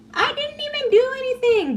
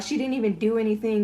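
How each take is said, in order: First: Mocking victim voice, very high; Nayeli. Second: Said in the usual way. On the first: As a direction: imitate a whiny innocent protest, pitched way up. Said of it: "she's always playing the victim".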